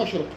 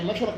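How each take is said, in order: First: مشرق softly, with short i after the ر: mashriq; كسر الراء. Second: مشرق softly, with short a after the ر: mashraq; فتح الراء. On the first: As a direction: say مشرق quietly with a kasra on the ر. (مشرق بكسر الراء) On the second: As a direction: say مشرق quietly with a fatha on the ر. (مشرق بفتح الراء) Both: Shown as a demonstration. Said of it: "مو بالكسر".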